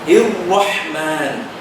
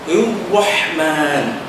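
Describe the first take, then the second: The two takes are said the same way.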